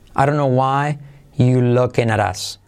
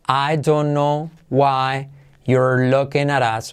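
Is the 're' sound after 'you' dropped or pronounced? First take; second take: dropped; pronounced. First: The 're' after 'you' is dropped. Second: The 're' after 'you' is pronounced. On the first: "se cae el R y queda you looking at us" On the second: "una donde está pronunciado todo"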